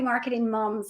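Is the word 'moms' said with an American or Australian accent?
Australian. Moms is said with an Australian 'mums' vowel.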